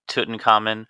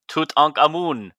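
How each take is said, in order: First: The name is said in an ordinary voice. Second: The name is said in a put-on mummy voice.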